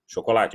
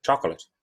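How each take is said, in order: First: "chocolate" in Portuguese, every syllable sounded: sho-ko-la-tchi; quick but syllabic. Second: "chocolate" squeezed to two syllables, CHOK-lut; English "chocolate", punched first syllable, swallowed ending; English pronunciation. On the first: Teacher showing the word stays divided, quick four-syllable "chocolate". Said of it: "Mesmo que você fale rápido". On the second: Teacher contrasting with Portuguese, compact English "chocolate". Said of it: "olha como é que eu vou falar". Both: Shown as a demonstration.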